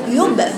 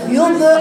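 First: The b is unvowelled with a short bounce. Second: The b is coloured by a u-like vowel. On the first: The speaker calls it right. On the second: The speaker calls it wrong.

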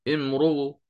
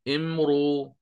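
First: The final hamza is softened with a faint vowel. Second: The final hamza becomes a plain long vowel. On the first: "التسهيل مع الروم" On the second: "سأبدل"

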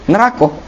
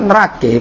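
First: The word ends with an 'a' vowel. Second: The word ends with an 'e' vowel. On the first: The speaker calls it right. "Neraka. Bukan nerake" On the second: The speaker calls it wrong. "Kalau di sunan tuh nerake"

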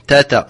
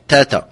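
First: The t sound is light and thin. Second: The same.

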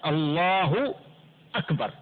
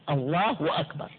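First: The two words join with no added w sound. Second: A w sound is inserted before the second word. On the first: God is the greatest. The speaker calls it right. "النطق الصحيح الله أكبر، لا تزيد الطبيعي عن حركاته ولا تغير الحركات، الله أكبر، هذا اللفظ الصحيح" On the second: Something greater is joined to God. The speaker calls it wrong. "فيأتي بواو بين لفظ الجلالة وبين كلمة أكبر، وهذا لحن فاحش"

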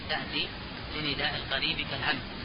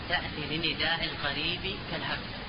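Both takes have the same delivery.

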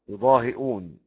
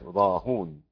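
First: A glottal stop with u follows the h sound. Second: The h sound takes u with no glottal stop. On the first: "بكسر الهاء وزد همزة مضمومة" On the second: "بضم الهاء وحذف الهمزة"

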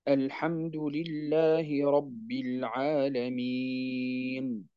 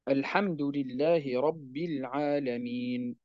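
First: The vowel before the final n is held long. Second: The vowel before the final n is short. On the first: "وجائز فيه الطول" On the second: "جائز فيه القصر"

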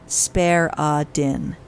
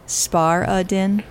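First: The first syllable rhymes with 'care'. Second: The first syllable rhymes with 'car'. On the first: The speaker calls it wrong. "It looks like Spare-a-din" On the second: The speaker calls it right. "I think it's Spar-a-din"

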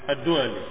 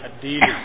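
First: The name is said with a 'u' vowel after 'd'. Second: The name is said with an 'i' vowel after 'd'. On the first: "قال أبو الأسود الدولي" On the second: "ويقال أيضا الديلي kadang dipanggil juga atau dibaca dengan الديلي"

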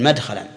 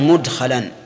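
First: The first vowel is a, as in madkhalan. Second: The first vowel is u, as in mudkhalan. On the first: It is the form made from the three-letter verb. The speaker calls it wrong. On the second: It is the form made from the four-letter verb. The speaker calls it right.

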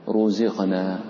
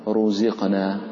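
Both takes have the same delivery.

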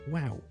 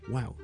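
First: It is said high-pitched and lively. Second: It is said high-pitched and lively.

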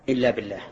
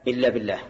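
The two takes are said the same way.

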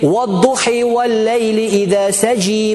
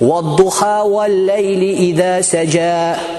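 First: It is recited in another Arabic dialect. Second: It is recited in the standard Hafs reading. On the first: "Есть диалект" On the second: "по Хафсу, которая у нас находится, это мы читаем"

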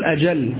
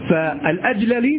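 First: The two l sounds merge into one doubled l. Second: The two l sounds are pronounced separately. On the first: The speaker calls it right. "فالصواب أن تقول الأجل وليس الأجللي" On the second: The speaker calls it wrong. "فالأجللي تقول الأجل"

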